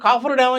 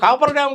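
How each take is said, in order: First: The middle consonant is an f sound. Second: The middle consonant is a p sound. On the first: The speaker calls it right. "అది కాఫర్ dam అని చెప్తాను నేను" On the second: The speaker calls it wrong. "కాపర్ dam కాదురా బాబు"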